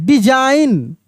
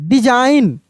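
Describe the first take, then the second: Both takes have the same delivery.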